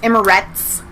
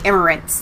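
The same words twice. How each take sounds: First: No extra n sound is added before the t. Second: An extra n sound is added before the t. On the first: The speaker calls it right. "There's not. It's Emirates" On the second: The speaker calls it wrong. "like there's an N on"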